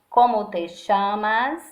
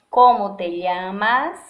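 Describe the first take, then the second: First: It has an Argentine or Uruguayan accent. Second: It has a non-Argentine, non-Uruguayan Spanish accent.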